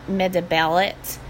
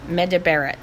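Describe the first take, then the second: First: The r is made with the tongue near an L. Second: The r is made like an English R. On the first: The speaker calls it right. "you're positioning your tongue almost like you're making an L sound" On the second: The speaker calls it wrong. "just do it the way you do an R"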